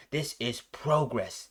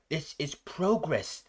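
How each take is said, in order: First: Cold emotionless. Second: Lightly voiced cold villain, slow and flat-toned; a hint of a cold machine-like boss, slowly; cold emotionless. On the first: Retold or imitated. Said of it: "you don't hear any kind of emotion out of it". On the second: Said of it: "cold, logical kind of just dialect".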